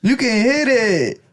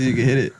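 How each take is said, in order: First: Put-on high, drawn-out Mexican accent. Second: Said in the usual way. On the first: Retelling the comedian's joke, high Mexican accent. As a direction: stretch it out in a playful Mexican accent. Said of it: "I love doing Mexican accents".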